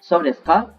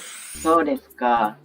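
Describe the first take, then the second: First: The voice is raised to a higher tone. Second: The voice is lowered through the phrase. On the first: It asks whether that is so. "If you say it with a higher tone" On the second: I see, with a little disappointment. "If you lower your voice like"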